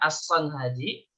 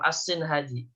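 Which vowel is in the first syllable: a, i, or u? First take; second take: a; i. First: The first syllable has the vowel a. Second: The first syllable has the vowel i. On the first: "Bisa dibacanya fathah" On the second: "Bisa dibaca kasroh"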